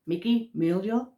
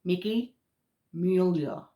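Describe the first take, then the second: First: "Mickey Mulio" said as mick-ee MOOL-yo, unsure rising end; "Mulio" fumbled with a questioning lilt; mispronounced name. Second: "Mickey Mueller" said carefully as MYOO-ler; "Mueller" settled and sure, falling end; corrected name. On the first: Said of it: "I have a very thick Massachusetts accent". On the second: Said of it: "Bear with me". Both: Real, not acted.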